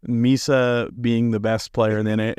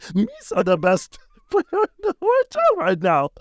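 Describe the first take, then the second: First: It is said in his normal voice. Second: It is said in a Jar Jar Binks voice.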